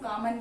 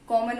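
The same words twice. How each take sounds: First: The first vowel is an open 'aa' sound. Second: The first vowel is a rounded 'aw' sound. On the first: The speaker calls it wrong. "कई लोग क्या पढ़ेंगे, इसको कॉमन पढ़ेंगे" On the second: The speaker calls it right. "कॉमन होता है"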